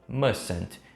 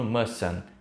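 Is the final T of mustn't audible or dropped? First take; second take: audible; dropped. First: A light final T sound is heard. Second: The final T sound is left off. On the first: "a segunda você vai pronunciar bem leve" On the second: "sem o T final"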